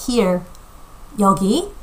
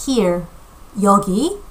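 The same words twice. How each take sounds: The two takes are said the same way.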